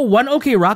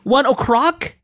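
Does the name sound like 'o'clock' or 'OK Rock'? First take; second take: OK Rock; o'clock. First: The letters O and K are said separately. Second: The middle is blended to sound like 'o'clock'. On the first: The speaker calls it wrong. "Instead of one OK Rock?" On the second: The speaker calls it right. "It's supposed to be sound like 1 o'clock?"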